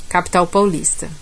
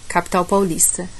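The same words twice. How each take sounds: The two takes are said the same way.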